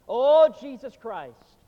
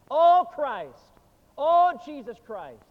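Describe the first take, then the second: First: Slow, loud, drawn-out anguished cry; desperate outcry. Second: Louder, higher desperate cry; desperate outcry. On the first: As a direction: cry out to Christ in slow despair as a dying man. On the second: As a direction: plead in panic, higher and louder. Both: Retold or imitated. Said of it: "he cried out more desperately".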